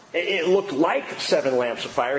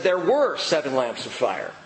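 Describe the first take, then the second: First: "looked" lifted with a rising tune; stress on looked. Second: "were" pressed firmly with a falling tune; stress on were. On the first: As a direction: lean on "looked" as the rejected wording. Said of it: "and he doesn't say". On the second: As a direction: land on "were" to correct the wording. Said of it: "He said". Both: Shown as a demonstration.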